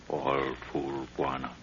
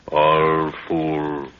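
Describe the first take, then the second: First: Softer, muttered contempt; hushed scorn. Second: Louder scornful jab at the guards. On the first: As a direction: mutter it with a quiet sneer. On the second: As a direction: spit out contempt. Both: Acted. Mocking the sleeping guards.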